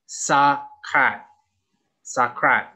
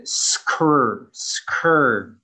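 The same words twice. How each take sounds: First: Sakrat with an added vowel after S; Thai-style error. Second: Skur with s-k-r blended, no vowel; correct cluster. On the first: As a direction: Sakrat split into two syllables. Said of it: "They will say the S first and then an A sound". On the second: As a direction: Skur said as one tight sound. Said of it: "We say it all together". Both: Shown as a demonstration.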